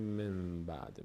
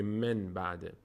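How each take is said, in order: First: من بعد said as mem ba'd; soft من بعد with m replacing n; nun turned to mim. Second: من بعد with a clear n before b; slow من بعد, the n not turned to m; nun left unchanged. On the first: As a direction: hum an m in من before بعد. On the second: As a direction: sound the نون plainly in من بعد. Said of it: "نمیگه من بعد". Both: Shown as a demonstration.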